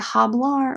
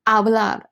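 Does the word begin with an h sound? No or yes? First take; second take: yes; no. First: The word starts with an audible h sound. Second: The word starts directly with the vowel sound. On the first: The speaker calls it wrong. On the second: The speaker calls it right.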